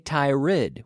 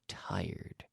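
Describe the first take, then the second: First: It is not said as 'tire' plus D. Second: It is said as 'tire' plus D. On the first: The speaker calls it wrong. "We don't say tired" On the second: The speaker calls it right. "we say tired"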